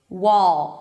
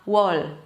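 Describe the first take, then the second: First: The final L is dark, made in the back. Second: The final L is very light, tongue tip raised. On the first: The speaker calls it right. "It's about that oh oh oh weird sound" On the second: The speaker calls it wrong. "and not"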